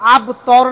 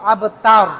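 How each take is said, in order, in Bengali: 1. দ্বিতীয় স্বরধ্বনিটি 'o'-এর মতো শোনায়। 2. দ্বিতীয় স্বরধ্বনিটি 'a'-এর মতো শোনায়। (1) "এই আব তর না কিন্তু"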